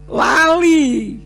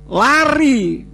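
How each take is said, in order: First: The middle consonant is an L sound. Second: The middle consonant is a clear R sound. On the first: "itu bunyinya apa? Lali" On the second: "mau lari"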